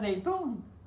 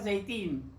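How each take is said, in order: First: The last syllable has an 'oo' vowel. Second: The last syllable has an 'ee' vowel. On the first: It is the local pronunciation, revealing familiarity. The speaker calls it right. "lo pronunciaste bien" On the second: It was said wrongly on purpose to prompt a correction. The speaker calls it wrong. "él dijo mal"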